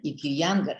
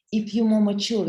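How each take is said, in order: First: Said in the usual way. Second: More punched high and loud; stress on more. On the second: Real, not acted. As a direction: hit the word more, mature. Contrasting younger and older listeners.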